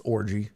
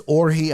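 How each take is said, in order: First: Said in the usual way. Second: Orji said as "or-hee"; alternative pronunciation. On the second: Shown as a demonstration. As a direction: say Orji with an H sound for the J. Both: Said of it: "please tell me it's pronounced Orji".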